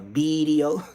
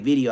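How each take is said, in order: First: The word begins with a B sound. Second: The word begins with a V sound. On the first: "He said with a B" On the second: "He don't say video"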